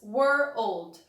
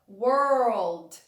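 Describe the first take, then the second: First: It is split into two separate syllables. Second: It is blended into one smooth syllable. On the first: "você falar were old" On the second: "Aí depois você junta as palavras"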